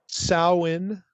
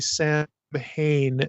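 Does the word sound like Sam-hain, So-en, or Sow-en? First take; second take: Sow-en; Sam-hain. First: The first vowel sounds like ow in cow. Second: It is said as Sam-hain, with an h. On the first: The speaker calls it right. "like ow, the O W in cow" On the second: The speaker calls it wrong. "that is not the way we pronounce this name"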